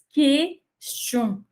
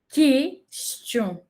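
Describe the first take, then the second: First: It is said with a French pronunciation, mouth open. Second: The same.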